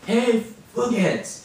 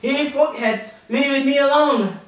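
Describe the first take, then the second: First: Repeating slowly. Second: High, loud "Hey, fuckheads, leave me alone"; high loud triumphant "leave me alone"; proud shout. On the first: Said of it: "Cal, say it". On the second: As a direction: shout it out proudly, finally getting it right. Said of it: "he said". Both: Retold or imitated.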